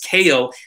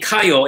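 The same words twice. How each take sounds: First: It is said with American pronunciation. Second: It is said with Japanese pronunciation. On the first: This is how most people say it. The speaker calls it wrong. "everyone says Kayo" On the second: This is how the name's owner says it. The speaker calls it right. "even my name"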